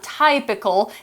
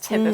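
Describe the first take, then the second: First: The first vowel sounds like the vowel in type. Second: The first vowel sounds like the vowel in tip. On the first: The speaker calls it wrong. "it's not typical" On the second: The speaker calls it right. "it's typical. We changed the pronunciation"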